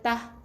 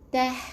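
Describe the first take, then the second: First: The final h has little or no breath. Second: The final h has a strong burst of breath. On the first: The speaker calls it wrong. "bukan tah" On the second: The speaker calls it right. "ada angin keluar"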